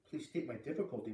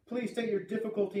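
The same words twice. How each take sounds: First: Soft, inward echo of the request; thinking to himself. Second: Raised-pitch official radio request; radio operator. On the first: Boy echoing the operator in his thoughts, quiet. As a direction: repeat it quietly to yourself in disbelief. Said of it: "Brian thought". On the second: Radio operator asking caller for his difficulty, raised official voice. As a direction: ask formally and clearly over a poor link. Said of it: "The voice was very faint and breaking up". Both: A narrator's reading.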